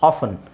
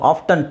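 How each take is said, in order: First: The word is said without a t sound. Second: The word is said with a t sound. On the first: "ಆಫನ್ is better option ... ಟಿ extra ಹೇಳೋ ಅವಶ್ಯಕತೆ ಇಲ್ವಲ್ಲ" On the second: "ಟಿ ಹಾಕ್ಕೊಂಡು ಹೇಳ್ಬೋದು"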